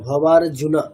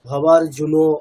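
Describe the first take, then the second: First: The word ends with an 'a' vowel. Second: The word ends with an 'o' vowel. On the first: The speaker calls it right. "অকারটাকে অকার বলার চেষ্টা করবেন" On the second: The speaker calls it wrong. "আপনি ওকার প্রত্যেকটাতেই বলছেন"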